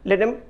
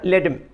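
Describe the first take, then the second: First: The word 'them' is reduced to 'em'. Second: The word 'them' is reduced to 'em'.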